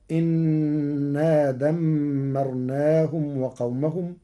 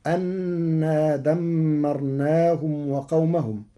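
First: إنا opened with "i", "innaa"; slow recitation, إنا as innaa with held nun; hamza with kasra. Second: أنا opened with "a", "annaa"; slow recitation, أنا as annaa with held nun; first reading of أنا. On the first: Teacher shows Warsh's reading, إنا said innaa. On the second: Teacher recites the verse before Warsh's change, أنا as annaa. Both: Shown as a demonstration. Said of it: "بكسر الهمزة".

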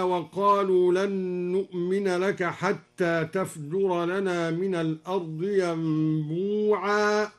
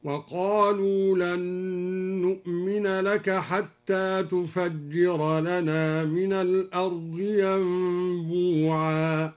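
First: تفجر read tafjura, single jim; unmodified reading. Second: تفجر as tufajjira, doubled jim, slow chant; al-Duri's reading. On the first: Teacher citing the verse before al-Duri's variant, measured reading. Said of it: "قرأ الدوري بضم التاء وتشديد الجيم". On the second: Teacher demonstrating al-Duri's variant, slow drawn-out recitation. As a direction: recite slowly, damma on the ta and heavy jim in تفجر. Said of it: "بضم التاء وتشديد الجيم هكذا". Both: Shown as a demonstration.

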